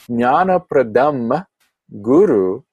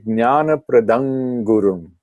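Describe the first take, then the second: First: The last word ends in a plain vowel. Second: The last word ends with an added m sound. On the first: "when you say Jnana Pradam Guru" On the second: "you can change that legitimately, optionally, and say Jnana Pradam Gurum"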